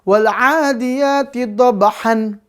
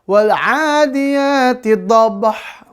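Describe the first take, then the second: First: The last word ends with an n sound. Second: The last word ends abruptly on a bare h. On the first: "salah lagi ya" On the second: "jangan dibaca ... salah ya"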